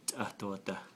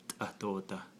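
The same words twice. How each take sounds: The two takes are said the same way.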